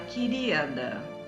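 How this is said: It is said in a falsely sweet tone. The speaker's kindness is not genuine. "já é uma coisa meio hipócrita"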